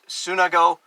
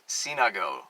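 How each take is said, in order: First: The first vowel sounds like 'u'. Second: The first vowel sounds like 'i'. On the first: This is how the brand presents the name. "promotes it as Sunago, S U N" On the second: This is the original Greek pronunciation. "the proper pronunciation is Sinago"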